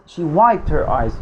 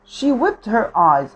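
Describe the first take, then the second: First: "wiped" said with the vowel of "eye"; WIPED with long i. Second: "whipped" said with a short i and a p-t ending. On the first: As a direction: say "wiped" to rhyme with "typed". (نطق wiped بصوت "آي" طويل) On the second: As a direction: say "whipped" to rhyme with "slipped". (نطق whipped بحركة i قصيرة) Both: Shown as a demonstration. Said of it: "برضو هتأكد معلش من نطق whipped ولا wiped".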